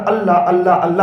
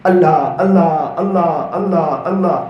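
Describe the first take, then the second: First: Prayerful calling. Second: Low "Allah" repeated, each falling and fading; prayerful calling. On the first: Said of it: "زیادہ بولتا ہوں". (دعا میں "اللہ" کو نرمی سے پکارنا) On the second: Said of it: "میری دعا کے اندر میں اکثر". (دعا میں "اللہ" کی دھیمی ہوتی پکار) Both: Shown as a demonstration.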